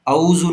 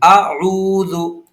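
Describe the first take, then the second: First: It starts with a plain vowel sound. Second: It starts with a throaty ain sound. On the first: The speaker calls it wrong. "औज़ु नहीं है" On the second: The speaker calls it right. "ये आइन है, इस आइन को हमको प्रोनाउंस करना है सही से"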